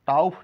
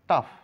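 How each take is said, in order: First: The vowel is sounded with an extra 'o' glide. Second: The vowel is short with no 'o' glide. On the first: The speaker calls it wrong. "টাউফ না" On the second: The speaker calls it right. "ও এর কোনো sound নেই"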